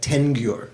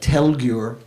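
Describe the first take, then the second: First: The L is dropped and replaced by nasal N. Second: The first syllable ends in a clear L sound. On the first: "is sort of dropped and, and it becomes nasalized" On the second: "the la of the last word, like telgyur"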